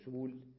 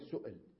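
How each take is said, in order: First: A long u-vowel replaces the glottal stop. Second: A glottal stop sits in the middle. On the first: The speaker calls it wrong. "لا تقول سول" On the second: The speaker calls it right. "انطقها كما هي همزة"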